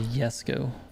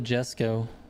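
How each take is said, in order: First: The name begins with a Y sound. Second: The name begins with a J sound. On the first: "people say it's supposed to be Yesco" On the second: "I call the Jesco with a J"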